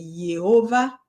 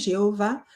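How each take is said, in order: First: The name begins with a Y sound. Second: The name begins with a soft J sound. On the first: This follows the original Hebrew letter. "le yod, c'est l'équivalent du Y" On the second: This is how people usually say it today. "on dit Jéhovah"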